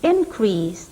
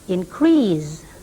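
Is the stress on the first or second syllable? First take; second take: first; second. First: The stress is on the first syllable. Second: The stress is on the second syllable. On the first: It is used as a noun. "the first syllable of the noun has primary stress" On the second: It is used as a verb.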